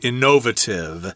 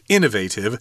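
First: It is said with an English pronunciation. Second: It is said with an American pronunciation.

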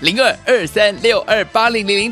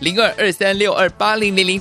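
First: The number is read at a slow pace. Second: The number is read at a fast pace.

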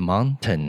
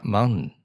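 First: The middle t is clearly and fully pronounced. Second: The middle t is swallowed and passed quickly. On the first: "那个ten 应该要t 发出来啊" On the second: "怎么会发mountain？"

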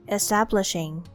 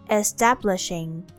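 Both takes have the same delivery.

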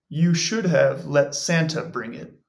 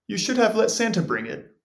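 First: It is read slowly. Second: It is read at normal speed.

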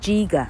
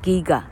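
First: The word begins with a soft j sound. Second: The word begins with a hard g sound. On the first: The speaker calls it wrong. "giga 就不念giga" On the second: The speaker calls it right. "是念giga"

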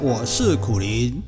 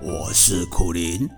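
First: It is said in his natural voice. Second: It is said in a put-on owl voice.

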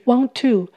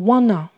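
First: Both words are said fully and separately. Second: The words blend into one reduced word. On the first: "Want to 想要点点点" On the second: "在口语上常常把它念成wanna"

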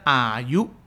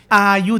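First: The first syllable does not have a level pitch. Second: The first syllable has a high level pitch. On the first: The speaker calls it wrong. "大家不要念到อายุ" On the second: The speaker calls it right. "อายุ的啊是一声哈"

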